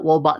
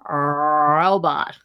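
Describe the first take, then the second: First: The first R sounds like a W. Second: The first R is exaggerated and distorted. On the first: "it comes out wobot sometimes" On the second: "distorting it by trying too hard. Robot. Kind of like that"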